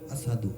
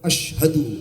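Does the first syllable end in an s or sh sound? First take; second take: s; sh. First: The first syllable ends in an s sound. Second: The first syllable ends in an sh sound. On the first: The speaker calls it wrong. "উনি বলেন আসহাদু" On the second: The speaker calls it right. "আশ শিন উচ্চারণ"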